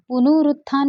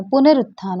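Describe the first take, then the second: First: पुनरुत्थान said as punurutthaan, u after n; पुनरुत्थान with the u vowel, shown as wrong; wrong form said aloud. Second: पुनरुत्थान said as punarutthaan, short a after n; पुनरुत्थान with the short a, shown as correct; correct form said aloud. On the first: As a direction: read पुनरुत्थान with u after the n as the error. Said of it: "पुनरुत्थान नहीं होता है". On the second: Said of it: "पुनरुत्थान होता है". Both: Shown as a demonstration.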